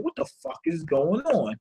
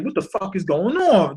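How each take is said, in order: First: Softer, hushed, said to himself; inner thought. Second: Said in the usual way. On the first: Retold or imitated. Virgo thinking to himself, hushed and soft. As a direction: let it drop to a hushed private thought. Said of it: "That's what Virgo's thinking". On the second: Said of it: "And he's like".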